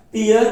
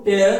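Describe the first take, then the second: First: टीयर with long ee, high and loud; emphatic टीयर, rhyming with deer; pronounced teer. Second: टेयर with an "air" vowel; emphatic टेयर, higher than usual; pronounced tair. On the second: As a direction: say टेयर to rhyme with chair. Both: Shown as a demonstration. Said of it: "sound क्या है, अलग अलग है".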